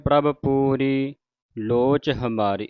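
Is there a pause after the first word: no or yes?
no. The phrase runs on without a pause. The speaker calls it wrong. "ਆਪਾਂ ਪੜ੍ਹ ਜਾਂਦੇ ... ਇਸ ਤਰ੍ਹਾਂ ਨਹੀਂ ਪੜ੍ਹਨਾ"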